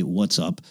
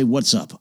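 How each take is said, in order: First: "What's up?" dropped low and soft, like an embarrassed aside; quiet aside. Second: Said in the usual way. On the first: Shown as a demonstration. An older man softly trying out slang, quiet. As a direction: mutter "What's up?" under the breath. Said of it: "A person of my age normally doesn't say". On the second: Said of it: "you like how I say".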